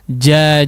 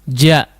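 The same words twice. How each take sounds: First: The vowel is lengthened, held four beats. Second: The vowel is short, held one beat. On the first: "Demikian juga dengan empat harokat" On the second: "Kalau satu harakat itu tidak memiliki mad ya"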